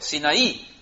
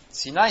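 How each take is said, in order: First: It is pronounced the Spanish way. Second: It is pronounced the Hebrew way. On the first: "Sinaí en español" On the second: "Sinai se dice en hebreo"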